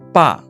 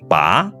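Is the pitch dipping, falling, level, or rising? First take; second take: falling; rising. First: The pitch falls sharply from high to low. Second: The pitch rises from middle to high. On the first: It means father. "Bunyi keempat" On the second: It means to pull out. "Bunyi kedua"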